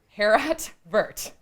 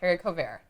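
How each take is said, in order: First: It is said with English-sounding letter values. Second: It is said with French-sounding letter values. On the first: The speaker calls it wrong. "They're spelled like" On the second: The speaker calls it right. "But they're pronounced"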